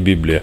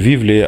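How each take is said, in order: First: The word is said with b sounds. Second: The word is said with v sounds. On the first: This is the Latin-based pronunciation. The speaker calls it wrong. "а не Біблія по-грецьки" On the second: This is the Greek pronunciation. The speaker calls it right. "насправді це Вівлія"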